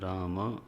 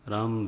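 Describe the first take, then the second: First: The final vowel is fully pronounced at the end. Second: The final vowel is cut off, Hindi style. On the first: The speaker calls it right. "राम ऐसा होगा" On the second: The speaker calls it wrong. "राम भद्राय नहीं होता है"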